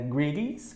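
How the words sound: It is said with an American accent. "pronúncia americana"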